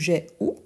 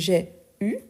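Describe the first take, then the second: First: The final vowel is a back 'oo' sound. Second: The final vowel is a rounded front 'u' sound. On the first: "c'est une question d'accent" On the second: "Il y a plus d'une prononciation"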